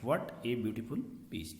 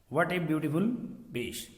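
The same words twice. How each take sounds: First: Said in the usual way. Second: German accent, v for w. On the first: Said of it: "ये बीच नहीं है, ये पीस है". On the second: Shown as a demonstration. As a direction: read it with a German shoemaker's accent. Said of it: "तो ये German accent होगी ना".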